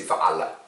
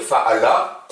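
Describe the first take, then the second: First: Fa'ala with a scraped throat sound on the aïn; proper aïn. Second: Fa'ala with a plain catch in the voice where the aïn should be; glottal stop fa'ala. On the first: Teacher models the real Arabic aïn for the class. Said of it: "mais c'est fa'ala". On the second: Teacher offers students an easier fallback pronunciation. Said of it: "vous pouvez dire fa'ala, ça ira". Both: Shown as a demonstration.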